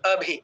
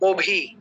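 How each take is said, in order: First: The first vowel is open, like a. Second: The first vowel is rounded, like o. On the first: This is the Sanskrit and Hindi pronunciation. The speaker calls it right. "আমরা বলছি কি अभी।" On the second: This is how Bengali speakers would read it. The speaker calls it wrong. "বাংলায় আমরা কি বলবো?"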